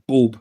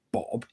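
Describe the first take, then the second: First: "Bob" with a long Scottish oh, like "Boab"; Scottish pronunciation. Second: Said in the usual way. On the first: Shown as a demonstration. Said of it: "is Scottish for Bob". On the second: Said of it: "I like Bob".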